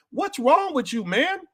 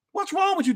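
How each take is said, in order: First: High, pleading exasperation; exasperated. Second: Even higher, pleading disbelief; more exasperated. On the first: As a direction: ask it like you can't believe them. Exasperated at listeners. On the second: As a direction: push the disbelief further up. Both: Real, not acted.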